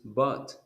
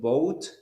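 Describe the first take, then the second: First: The vowel is a short 'uh' sound, like 'but'. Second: The vowel is a long 'oh' sound, like 'boat'. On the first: The speaker calls it right. "but it is but" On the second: The speaker calls it wrong. "you said boat"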